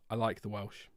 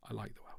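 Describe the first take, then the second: First: Soft, low reassurance; lowered, subdued voice; quiet insistence. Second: Very soft, low murmur; tiny, hushed reassurance; barely audible repeat. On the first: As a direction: say it softly and lower, backing down. Softly insists after denying being anti-Welsh. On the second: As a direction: repeat it almost under your breath. Repeats it much more quietly. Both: Real, not acted.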